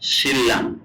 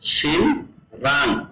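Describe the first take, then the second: First: The middle is pronounced as a double l. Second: The middle is pronounced as n followed by r. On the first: The speaker calls it right. "কোরিয়ানরা উচ্চারণ করবে কি শিল্লাং" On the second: The speaker calls it wrong. "দেখেন আছে কি শিন রাং"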